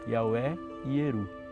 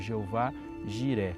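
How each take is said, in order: First: The name begins with a Y sound. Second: The name begins with a soft J sound. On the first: This is closer to the original Hebrew. "para a gente aproximar um pouquinho mais numa pronúncia que Abraão disse" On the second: This is the common Portuguese form. "comumente a gente fala ou canta o Senhor proverá como Jeová Jiré"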